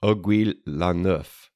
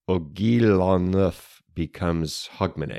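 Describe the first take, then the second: First: "Aiguille la Neuf" said the French way, /oɡwi lɑ nʊf/; "Aiguille la Neuf" with French vowels and a dropped final sound; French pronunciation. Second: "Aiguille la Neuf" slurred toward "Hogmanay" by a Scotsman; "Aiguille la Neuf" blurred into /oɡil ɑ nəθp/; garbled French. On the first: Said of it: "picture a, a Scotsman speaking Old French". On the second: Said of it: "a Scotsman speaking Old French and not quite getting it right". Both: Shown as a demonstration.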